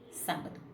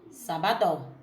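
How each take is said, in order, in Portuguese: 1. A tônica está na primeira sílaba. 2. A tônica está na última sílaba. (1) "Como a tônica é o sá" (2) "se a tônica fosse o dó"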